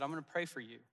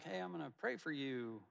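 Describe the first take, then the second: First: Plainly sincere, meaning every word. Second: Breezy throwaway promise, a touch softer; corny. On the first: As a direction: say it and truly mean it. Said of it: "I could tell that he meant it". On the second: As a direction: toss it off like a cliché. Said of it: "one of those corny". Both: Retold or imitated.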